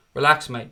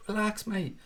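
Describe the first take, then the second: First: Said in the usual way. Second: Higher, softer mock reply; mocking calm-down. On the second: Streamer mockingly telling a whining fan to relax. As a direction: tease the moaner gently in a put-on voice. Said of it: "crying about Van Dijk".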